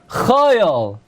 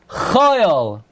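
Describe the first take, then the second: First: The word begins with a soft, throaty ch sound. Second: The same.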